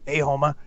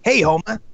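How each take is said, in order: First: The Moe impression is pitched lower. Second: The Moe impression is pitched too high.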